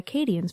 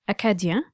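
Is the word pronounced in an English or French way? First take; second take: English; French. First: The word is pronounced with English sounds. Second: The word is pronounced with French sounds.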